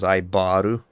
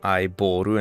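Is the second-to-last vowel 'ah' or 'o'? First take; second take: ah; o. First: The middle syllable has an 'ah' vowel. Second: The middle syllable has an 'o' vowel. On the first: "and it was Aibaru" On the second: "I would prefer if it wasn't Aiboru"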